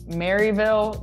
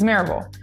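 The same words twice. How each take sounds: First: The name is pronounced as it is spelled. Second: The name is pronounced differently from its spelling. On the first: The speaker calls it wrong. "or as it reads, ... Don't say that" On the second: The speaker calls it right. "It's Maryville"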